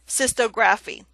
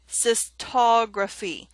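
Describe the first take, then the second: First: The ending is said as a separate 'graphy'. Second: The ending is blended into the word. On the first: The speaker calls it wrong. "it would be incorrect to say cystography" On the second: The speaker calls it right. "Look at the pronunciation below it"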